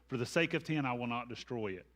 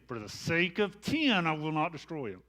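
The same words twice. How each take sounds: First: It is read plainly, with a neutral tone. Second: It is said with an impatient, exasperated tone.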